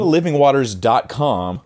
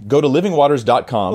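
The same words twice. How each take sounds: First: Livingwaters said slowly, each part clear; slow emphatic repeat. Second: Said in the usual way. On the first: Shown as a demonstration. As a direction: spell out livingwaters dot com slowly. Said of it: "repeated slowly". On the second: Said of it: "repeated for emphasis".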